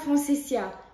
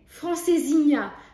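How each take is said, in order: First: No 'nh' sound comes before the final vowel. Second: An 'nh' sound comes before the final vowel. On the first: The speaker calls it wrong. "et pas francesia" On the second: The speaker calls it right. "ça aurait été francesinha"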